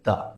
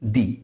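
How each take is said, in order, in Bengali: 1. শব্দটি একটি ছোট 'uh' ধ্বনি দিয়ে শেষ হয়। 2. শব্দটি একটি লম্বা 'ee' ধ্বনি দিয়ে শেষ হয়। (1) "তাহলে তার উচ্চারণ হবে দা" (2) "তাহলে তার উচ্চারণ হবে দি"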